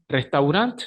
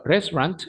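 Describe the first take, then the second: First: Restaurant with Spanish vowels and tapped r; Spanish pronunciation. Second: Restaurant clipped to two syllables, English r; English pronunciation. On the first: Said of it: "Restaurant sí en español". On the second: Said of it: "pero restaurant en inglés". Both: Shown as a demonstration.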